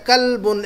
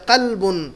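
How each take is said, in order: First: "کلبن" with a plain k at the front of the mouth; light k sound. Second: "قلبن" with a qaf from the back of the throat; "قلبن" with a heavy back q, not a plain k; deep q sound. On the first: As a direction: say "کلبن" starting on a light kaf, as in English "kit". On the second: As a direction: start "قلبن" on a deep uvular q. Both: Shown as a demonstration. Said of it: "عربی کے تلفظ سے معنی بدل جاتے ہیں".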